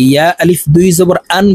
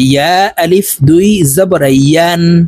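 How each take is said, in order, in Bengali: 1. শেষ অক্ষরটি একটি খালি স্বরবর্ণ দিয়ে শুরু হয়। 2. শেষ অক্ষরটি একটি y ধ্বনি দিয়ে শুরু হয়। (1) "এই ইয়ার উচ্চারণ আমরা অনেকে হামজার উচ্চারণ করে থাকি" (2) "বলতে হবে জিব্বার মধ্যখান থেকে"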